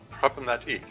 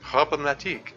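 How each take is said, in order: First: It is said without an exaggerated French accent. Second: It is said with an exaggerated French accent.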